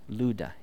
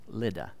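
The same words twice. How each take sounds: First: The first syllable does not sound like lid. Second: The first syllable sounds like the word lid. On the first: The speaker calls it right. "That's how you say it" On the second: The speaker calls it wrong. "just don't say Lydda. That sounds like something you put on a jar"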